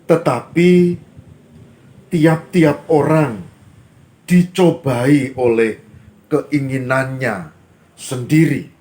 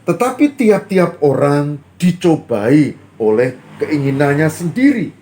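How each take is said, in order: First: The sentence is read at a slower pace. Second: The sentence is read at a faster pace.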